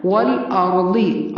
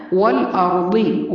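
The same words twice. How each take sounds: First: والارضی with full, heavy ر and ض; slow, heavy والارضی; heavy ra and dad. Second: والارضی with lips rounded on و; slow والارضی, heavy ض; rounded waw. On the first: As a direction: fill the ر and ض in والارضی. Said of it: "را کو پر پڑھنا ہے، ضاد کو بھی پر". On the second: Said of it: "واو پر منہ کو گول کرنا ہے". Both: Shown as a demonstration.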